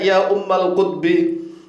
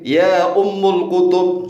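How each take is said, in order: First: Said with -al endings and ending in kutbi. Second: Said with -ul endings and ending in kutub. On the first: The speaker calls it right. "seharusnya ya ummal kutbi" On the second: The speaker calls it wrong. "Kemudian lagi ya ummul kutub"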